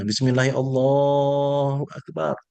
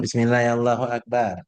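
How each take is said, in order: First: The 'Allah' in the phrase is drawn out long. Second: The phrase is said quickly with a short 'Allah'. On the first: It is said from the heart, with fuller meaning. The speaker calls it right. "Panjangnya Allahnya" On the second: It is said without leaving any trace in the heart. The speaker calls it wrong.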